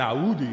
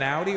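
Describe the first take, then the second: First: Audi said as "a-OO-di"; Arabic-style pronunciation. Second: Said in the usual way. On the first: Shown as a demonstration. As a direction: split Audi with a catch and long "oo". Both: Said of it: "an Audi or an Audi".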